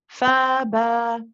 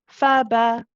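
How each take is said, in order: First: Each vowel is lengthened and held. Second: Each vowel is held for one short count. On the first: "I'm going to do it with the mud" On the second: "reduce the timing and make it one one count each"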